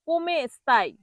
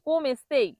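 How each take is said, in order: First: The first word keeps its final vowel; ending is 'ai'. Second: The first word drops its final vowel; ending is 'ei'. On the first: The speaker calls it right. "কোমে স্তাই হবে" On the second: The speaker calls it wrong. "কোম স্তেই হবে না"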